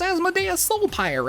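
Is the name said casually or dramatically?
casually. The name is said in a plain, casual voice. The speaker calls it wrong. "You can't just be like"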